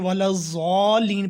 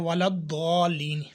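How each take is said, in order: First: The second word starts with a 'z' sound. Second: The second word starts with a heavy 'd' sound. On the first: The speaker calls it wrong. "अक्सर बंदे वाला ज़ालीन पढ़ते हैं" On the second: The speaker calls it right. "जबकि लफ्ज़ है वाला दौलीन"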